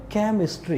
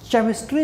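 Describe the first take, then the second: First: 'केमिस्ट्री' with a hard k, 'kem-is-tree'; carefully parted 'केमिस्ट्री', k not ch; correct k sound. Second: 'केमिस्ट्री' mispronounced 'che-mis-tree'; 'केमिस्ट्री' opening like 'cheese'; wrong ch sound. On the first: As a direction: model 'केमिस्ट्री' starting on k. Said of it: "इसको पढ़ते हैं". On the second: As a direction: say 'केमिस्ट्री' with ch instead of k. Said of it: "नहीं पढ़ते". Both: Shown as a demonstration.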